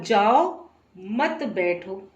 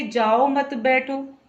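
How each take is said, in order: First: Slow "जाओ", clear break, then "मत बैठो"; pause after जाओ. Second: "जाओ मत" run together, then "बैठो"; group "जाओ मत" as one phrase, "बैठो" apart; pause after मत. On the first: Teacher showing how a comma changes meaning, pause after "जाओ". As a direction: split off "जाओ", keep "मत बैठो" together. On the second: Teacher showing how a comma changes meaning, brief break after "मत". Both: Shown as a demonstration. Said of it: "अर्धविराम लगाने से और कहने के तरीके से".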